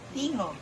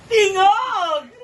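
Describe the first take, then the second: First: It sounds neutral. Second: It sounds excited.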